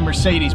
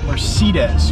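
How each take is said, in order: First: The word has an American-style pronunciation. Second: The word has a German-style pronunciation. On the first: "us Americans always say Mercedes" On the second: "I've heard a lot of Germans say Mercedes or something like that"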